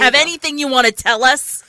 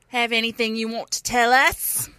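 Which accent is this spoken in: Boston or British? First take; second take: Boston; British. First: It is spoken in a Boston accent. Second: It is spoken in a British accent. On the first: The speaker calls it right. "It was supposed to be Boston accent" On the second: The speaker calls it wrong. "It came out a little British"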